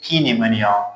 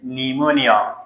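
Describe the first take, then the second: First: The word starts with a p sound. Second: The word starts with an n sound. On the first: The speaker calls it wrong. "you don't say P pneumonia" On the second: The speaker calls it right. "P is silent"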